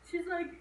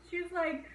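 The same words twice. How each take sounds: The two takes are said the same way.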